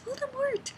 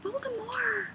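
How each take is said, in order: First: The final T is clearly sounded. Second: The final T is left silent. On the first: The speaker calls it right. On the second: The speaker calls it wrong.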